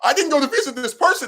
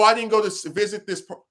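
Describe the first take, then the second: First: It is said in a put-on imitating voice. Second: It is said in the speaker's normal voice.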